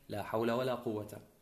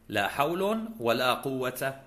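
First: Both nouns end in a short -a. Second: The first ends in -un, the second in -a. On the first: "يجوز فتح الاسمين" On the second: "رفع الأول وفتح الثاني"

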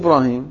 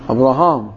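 First: The name ends with a long ee vowel. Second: The name ends with a long a vowel. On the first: This is the Arabic form of the name. The speaker calls it wrong. "مو إبراهيم" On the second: This is the original Hebrew form of the name. The speaker calls it right. "هذا اللفظ العبري دائما"

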